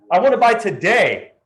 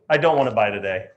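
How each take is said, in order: First: High, louder, eager; a keen client ready to buy; eager buyer. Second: Low, flat refusal; sulky refusal. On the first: Fickle client flipping moods, eager and higher. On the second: Fickle client flipping moods, now low and sulky. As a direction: drop down into a sulk. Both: Acted. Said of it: "change their mind depending on their emotions".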